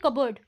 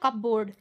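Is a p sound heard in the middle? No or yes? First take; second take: no; yes. First: The p is silent and the ending is reduced. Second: The p is sounded and 'board' is said fully. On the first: It is the normal spoken form. The speaker calls it right. "लेकिन इसको कैसे बोलेंगे? कबर्ड" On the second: It follows the spelling. The speaker calls it wrong. "इसको हम लोग कहते थे ना कपबोर्ड"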